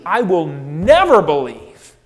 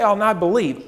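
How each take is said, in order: First: "never" punched out louder with a firm fall; stress on never. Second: Said in the usual way. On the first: Shown as a demonstration. Thomas vowing he will never believe, stressing never. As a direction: lean hard on "never". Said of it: "He's very emphatic about it". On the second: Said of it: "He doesn't just say".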